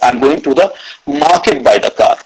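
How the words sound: The word market carries the main stress. The destination is the market, not elsewhere. "Third is market. I'm not going to the college"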